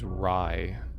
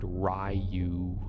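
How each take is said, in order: First: The name is said as one syllable. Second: The name is said as two syllables. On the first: "he pronounced Ryu's name as Rye" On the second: "I always said Ryu, being American"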